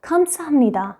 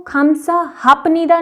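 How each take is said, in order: First: खमसामनिदा with a nasal m in place of the p; correct pronunciation. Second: खमसाहापनिदा with a clear p sound, the wrong way; wrong pronunciation. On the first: Teacher giving students the correct nasal form, a little softer. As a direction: say खमसामनिदा with the p turned into m. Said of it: "ये है आपका खमसामनिदा". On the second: Teacher showing students the wrong form, pronouncing the p. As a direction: say खमसाहापनिदा as the mistake to avoid. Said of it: "नहीं बोलना है". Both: Shown as a demonstration.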